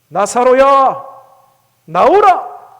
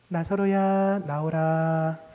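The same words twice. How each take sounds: First: It is said in a loud voice. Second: It is said in a soft voice.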